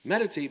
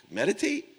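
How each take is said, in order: First: Meditate? dropping down, loud and dismissive; Meditate? flattened as if the idea is absurd; Meditate? falling in contempt; scoffing. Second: Meditate? shot up high and loud in disbelief; Meditate? as a scoffing rising question; mock-outraged Meditate? climbing sharply up; incredulous. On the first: Retold or imitated. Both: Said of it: "I just couldn't hold back".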